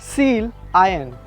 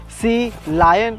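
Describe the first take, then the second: First: It is split as 'seal' plus 'ion'. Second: It is split as 'sea' plus 'lion'. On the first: The name means an ionized seal. "or is it seal iron" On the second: The name refers to the ocean animal. "is it sea lion"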